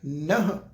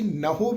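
First: The word ends on a bare 'h' sound. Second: The word ends with an 'ho' sound. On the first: The speaker calls it right. "ਨਹ ਪਾਠ ਆਏਗਾ" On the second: The speaker calls it wrong. "ਉਹਨੂੰ ਅਸੀਂ ਨਹੋ ਵੀ ਨਹੀਂ ਪੜ੍ਹਨਾ"

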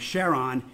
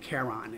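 First: The name begins with an 'sh' sound. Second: The name begins with a 'k' sound. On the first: It honors the discoverer's wife. "we tend to use the term Charon in honor of Jim Christie's wife, Charlene" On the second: It follows the classical name. "as opposed to Charon, as you'd hear in classical Latin"

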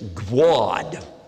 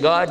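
First: A w-like glide comes before the vowel. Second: The vowel is plain, with no glide. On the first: "she'd say Gwad" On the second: "Instead of saying God"

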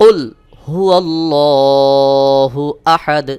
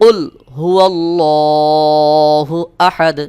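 The two takes are said the same way.

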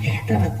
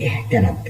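No difference in how they are said.

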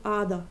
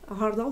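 First: It has no h and no rolled r. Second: It has an h and a rolled r.

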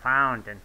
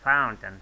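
First: The word is pronounced like 'fountain'. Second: The same.

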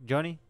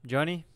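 Both takes have the same delivery.

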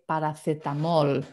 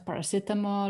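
First: The word is pronounced the Spanish way. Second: The word is pronounced the English way.

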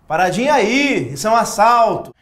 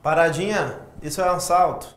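First: It is said in a more aggressive way. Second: It is said in a mild, unthreatening way.

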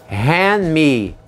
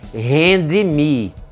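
First: The D sound at the end of hand is dropped. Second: The D sound at the end of hand is pronounced. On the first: The speaker calls it right. "o D não é uma sílaba tônica. Então, ela não vai ser pronunciada" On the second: The speaker calls it wrong. "Não se diz hand me"

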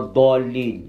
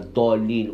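First: The first consonant is a heavy, emphatic d. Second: The first consonant is a plain, light d. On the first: "Ou ils prononcent le dal, mais mufakham. C'est-à-dire amplifié, emphasé" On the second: "Beaucoup le prononcent comme un dal"

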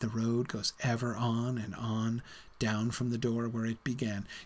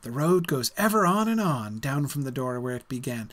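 First: The line is read in a weary, reluctant tone. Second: The line is read in an excited, eager tone. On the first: The traveller is sadly leaving home behind. "In Frodo's mouth, this sounds completely different" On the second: The traveller is eager to set out. "Remember Bilbo's excitement"

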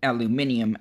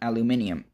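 First: It is said the British way, five syllables. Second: The same.

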